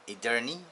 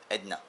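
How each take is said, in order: First: All three syllables are pronounced as spelled. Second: The middle syllable is squeezed into two syllables. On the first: The speaker calls it wrong. "it's written Edirne" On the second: The speaker calls it right. "they pronounce it here like Edna"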